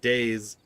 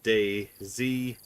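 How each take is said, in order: First: The name ends in a plain s sound. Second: The name ends with the letter name zee. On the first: "If you're if you pronounce it Days" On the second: "If you pronounce it Day Z, like spell it out. Day space Z E E"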